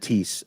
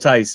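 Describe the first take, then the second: First: The name rhymes with 'please'. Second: The name rhymes with 'nice'. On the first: The speaker calls it wrong. "I said Tease uh, earlier on" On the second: The speaker calls it right. "is the correct way to pronounce that"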